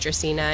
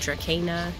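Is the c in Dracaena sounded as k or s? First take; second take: s; k. First: The c is sounded like an s. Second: The c is sounded like a k. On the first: The speaker calls it right. "C's are pronounced like S's" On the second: The speaker calls it wrong. "and not Dracaena"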